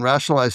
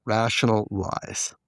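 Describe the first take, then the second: First: Said in the usual way. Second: "rational lies" drawn out as two separate words; slow "rational lies", with LIES standing apart; split into two words. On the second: Shown as a demonstration. Explaining an addicts' term, split into two words. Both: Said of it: "rationalize stands for rational lies".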